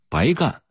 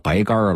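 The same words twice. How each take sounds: First: The word ends without any r-colouring. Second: The word ends with an r-coloured final. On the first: The work was done for nothing. "原意是白忙活了" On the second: "加了儿化韵就成了白干了"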